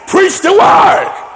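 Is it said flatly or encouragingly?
encouragingly. It is said warmly, with encouragement.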